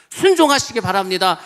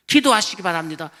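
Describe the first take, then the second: First: Building exhortation. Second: Said in the usual way. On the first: Real, not acted.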